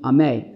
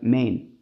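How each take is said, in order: First: The final n sound is dropped from the word. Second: The opening vowel is dropped from the word. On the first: The word is cut off at the end. "cut off, meaning ameh, and you don't really say the nun" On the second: The word is swallowed at the start. "if you basically don't pronounce the aleph"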